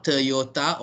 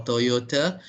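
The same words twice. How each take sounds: First: Toyota with a reduced first vowel, tuh-YO-ta; first rejected variant. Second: Toyota with a reduced last vowel, toh-YO-tuh; second rejected variant. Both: Shown as a demonstration. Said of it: "not Toyota or Toyota".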